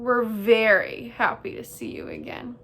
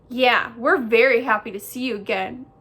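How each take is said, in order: First: Sarcastic mock welcome from sister bear; dripping sarcasm. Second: Loud, eager echo of the sister; echoing brother bear. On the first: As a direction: feign delight, with a sarcastic edge. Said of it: "Her voice dripped with sarcasm". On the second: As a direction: parrot it loudly as the tagalong brother. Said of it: "echoed brother bear". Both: A narrator's reading.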